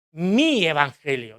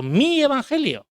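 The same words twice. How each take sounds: First: Said in the usual way. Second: "mi" lifted much higher and drawn out slowly; slow, high, possessive "mi"; stress on MI. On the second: Shown as a demonstration. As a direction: claim it, press hard on "mi" of "mi Evangelio". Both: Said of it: "decía Pablo".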